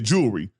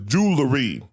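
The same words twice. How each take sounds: First: The word is said in a casual everyday form. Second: The word is said in its standard full form. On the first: This is how many people commonly say it. The speaker calls it wrong. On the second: This is how it is supposed to be said. The speaker calls it right.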